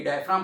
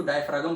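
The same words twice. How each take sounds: First: Said in the usual way. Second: डायफ्रागम with the ग sounded before the final म; pronounced with G. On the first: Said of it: "कई डायफ्राम पढ़ते हैं". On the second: Shown as a demonstration. Teacher showing students a variant reading, डायफ्रागम with ग voiced. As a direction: say डायफ्रागम, giving ग its own syllable. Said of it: "कई लोग उसको डायफ्रागम पढ़ते हैं".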